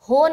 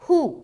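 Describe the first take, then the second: First: The vowel is an open 'o' sound. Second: The vowel is a pure, rounded 'u' sound. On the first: The speaker calls it wrong. "हो नहीं बोलना यहाँ पर। अगर हो बोलेंगे आवाज़ मजहूल हो जाएगी।" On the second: The speaker calls it right. "हा पेश हु"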